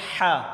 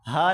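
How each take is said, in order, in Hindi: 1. ह कठोर है, गले से जोर लगाकर निकलता है। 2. ह हल्का और सीधा है। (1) "हा को गले से निकालें जोर लगाकर" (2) "हा नहीं"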